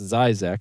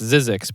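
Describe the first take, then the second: First: It is said the way the name really sounds. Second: It is said the way the speaker once assumed. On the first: The speaker calls it right. "but it's actually pronounced Zyzex" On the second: The speaker calls it wrong. "I thought it was pronounced Zizix"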